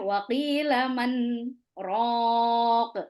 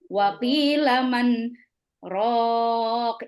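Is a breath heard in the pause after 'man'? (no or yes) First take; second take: no; yes. First: It pauses briefly after man without a breath. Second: It pauses after man with an audible breath. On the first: The speaker calls it right. "berhenti sejenak sebentar tanpa mengambil nafas baru" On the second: The speaker calls it wrong. "Kalau kita mengambil nafas baru maka akan seperti ini"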